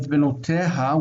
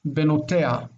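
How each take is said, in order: First: The h sound before the last vowel is pronounced. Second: The h sound before the last vowel is dropped. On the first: "which is what you're supposed to say" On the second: "this hey is like not pronounced"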